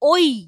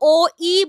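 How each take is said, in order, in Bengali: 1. দুটি স্বরধ্বনি একসাথে মিলে একটি ধ্বনি হয়ে যায়। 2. দুটি স্বরধ্বনি আলাদা আলাদা ধ্বনি হিসেবে উচ্চারিত হয়। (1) "আমরা বলি ওই" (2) "আমরা কিন্তু ও ই বলি না"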